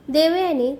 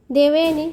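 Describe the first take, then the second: First: Sudden call. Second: Loud call from the other room; calling her name. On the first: Kartik suddenly calls Devyani while she feeds him, mild call. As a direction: call her name suddenly, lightly raised. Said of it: "त्याने अचानक तिला हाक मारली". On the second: Kartik calls Devyani back as she walks out, loud call. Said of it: "त्याचा आवाज आला". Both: A narrator's reading.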